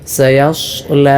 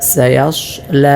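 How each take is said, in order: No difference in how they are said.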